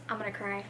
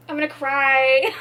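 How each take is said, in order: First: Small, soft, defeated voice; close to tears. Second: Louder whine rising at the end; hammed-up wail, pushed up on CRY; mock-tearful wail. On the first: Reader staring at the ugly sticker, softly close to tears. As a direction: say it softly, as if about to cry. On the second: Reader protesting the ruined prize, loud mock-tearful wail. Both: Real, not acted.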